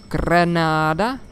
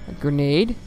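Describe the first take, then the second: First: "Granada" drawn out slow with a rise; sultry Granada. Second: Said in the usual way. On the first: Shown as a demonstration. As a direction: stretch "Granada" slowly, seductively, rising at the end. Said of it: "Do you have granada for me?".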